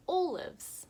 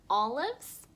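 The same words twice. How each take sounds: First: "olives?" with a long o, oʊ, as in "oh"; long O try. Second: "olives" with a short open o, ɔ, and a rising tune; short O try. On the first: Teacher testing second vowel for kids, long o. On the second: Teacher testing first vowel for kids, short o. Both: Shown as a demonstration. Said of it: "Is it".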